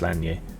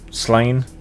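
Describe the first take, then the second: First: It ends in a 'nyeh' sound. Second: It ends in a plain 'n' sound. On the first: The speaker calls it right. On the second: The speaker calls it wrong.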